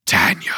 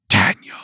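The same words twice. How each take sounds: First: Low, hollow call of a name; eerie whisper. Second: Low, drawn-out calling of the name; ghostly call. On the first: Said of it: "The thing whispered my name". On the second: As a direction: call out from far away like a spirit. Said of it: "It called to me again". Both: A narrator's reading.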